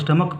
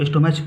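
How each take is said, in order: First: The word ends with a 'k' sound. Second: The word ends with a 'ch' sound. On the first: The speaker calls it right. "इसे स्टमक पढ़ते हैं" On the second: The speaker calls it wrong. "इसे बहुत सारे लोग स्टोमैच पढ़ते हैं, लेकिन वो गलत है"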